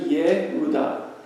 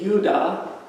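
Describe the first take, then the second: First: The name is said in three syllables. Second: The name is said in two syllables. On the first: The speaker calls it right. "but it's actually Yehudah" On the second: The speaker calls it wrong. "You'd think it would be Yudah"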